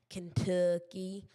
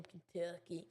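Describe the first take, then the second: First: Southern accent. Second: Said in the usual way. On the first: Shown as a demonstration. Streamer playing up Kentucky roots for viewers, southern accent. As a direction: lean slowly into a southern drawl on Kentucky. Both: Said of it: "That's my southern accent coming out here".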